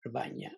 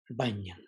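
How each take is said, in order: First: Rabanya said with a creaky vowel. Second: Banyan said with a slight breathy vowel; a touch breathy Banyan; slight breath. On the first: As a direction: creak a little through Rabanya. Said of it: "more of a creak in it". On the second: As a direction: keep a little breath in Banyan. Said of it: "there's still a slight breath". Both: Shown as a demonstration.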